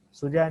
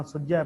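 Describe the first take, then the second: First: ਸੁਝੈ with a single, undoubled ਝ; wrong single consonant. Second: ਸੁਝੈ with a doubled, held ਝ; read with adhak. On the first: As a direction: say ਸੁਝੈ as su-jhai, without adhak. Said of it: "ਸੁਝੈ ਨਹੀਂ ਪੜ੍ਹਨਾ". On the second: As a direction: say ਸੁਝੈ as sujjhai. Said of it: "ਸੁਝੈ ਪੜ੍ਹਨਾ". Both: Shown as a demonstration.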